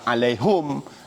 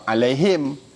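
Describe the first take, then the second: First: The word ends in hum with no final vowel. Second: The word ends in him with no final vowel. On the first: Another group of Arabs reads it this way. "ada sebahagian baca alaihum" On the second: One group of Arabs reads it this way. "dia baca alaihim"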